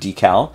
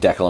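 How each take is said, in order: First: The word is said a non-Canadian way. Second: The word is said the Canadian way. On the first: "instead of decal" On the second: "as a Canadian saying decal"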